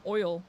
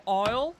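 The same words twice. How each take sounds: First: "oil" with a clear oy; oil sound. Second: "oil" here is the bird "owl", said near "oyl"; owl sound. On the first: Explaining what people think they hear, "oil". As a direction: say "oil" as the fuel, "oy-ul". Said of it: "they think I'm saying oil". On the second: Explaining the bird people mishear, local "owl". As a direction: say owl with her local vowel. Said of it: "people hear me say oil". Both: Shown as a demonstration.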